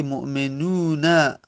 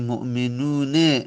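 First: Drawn-out ū in مؤمنون, then a clear -na; final fatha. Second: مؤمنون with -ne in place of -na; irregular final kasra. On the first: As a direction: say مؤمنون as mu'menūna, ending in short a. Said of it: "فتحه داره، نون در آخر". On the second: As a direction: say مؤمنون as mu'menūne, ending in short e. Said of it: "کسره بدیم شاذه". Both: Shown as a demonstration.

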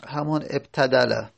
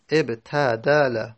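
First: Said in the usual way. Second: ابتدل drawn out slowly, syllable by syllable; slow teaching demo. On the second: Shown as a demonstration. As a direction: spell out ابتدل slowly for students.

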